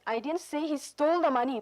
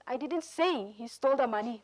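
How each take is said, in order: First: The word he is stressed. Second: The word say is stressed. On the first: "alang chong he" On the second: "say polong le ajur chi pi"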